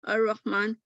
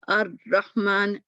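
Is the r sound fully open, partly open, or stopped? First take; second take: fully open; stopped. First: The r sound flows with no closure at all. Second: The r sound is cut off completely. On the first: "बिल्कुल रास्ता खोल दिया" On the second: "देखिए आवाज़ ही बंद हो गई"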